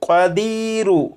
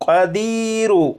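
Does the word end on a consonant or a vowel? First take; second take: vowel; vowel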